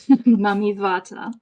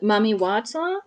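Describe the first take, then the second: First: Wata begins with a V sound. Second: Wata begins with a W sound. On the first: The speaker calls it right. "they would pronounce it with a V sound" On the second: The speaker calls it wrong. "sorry, no"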